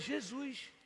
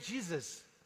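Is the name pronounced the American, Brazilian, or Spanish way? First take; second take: Brazilian; American. First: The name is pronounced the Brazilian Portuguese way. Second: The name is pronounced the American English way. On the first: "eu sou brasileiro, então é" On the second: "Se eu fosse americano, seria"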